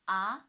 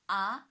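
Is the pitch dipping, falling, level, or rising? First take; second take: rising; rising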